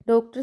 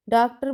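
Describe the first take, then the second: First: Said in the usual way. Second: डॉक्टर said daktar, with a flat a in place of the o; डॉक्टर with its first vowel as daak; wrong pronunciation. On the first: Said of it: "इस शब्द का सही ज्ञान नहीं होने से". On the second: Shown as a demonstration. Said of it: "डॉक्टर बोला जाता है".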